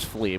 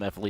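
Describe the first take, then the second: First: The name is said as one syllable. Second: The name is said as two separate parts. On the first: This is the player's actual name. "his name's Flea" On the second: This is a playful nickname. "I'm gonna call him F Lee"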